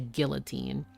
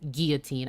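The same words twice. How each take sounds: First: The double L is sounded like an L. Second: The double L is sounded like a Y. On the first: "I don't say guillotine" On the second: "two L's are sometimes just pronounced as Y"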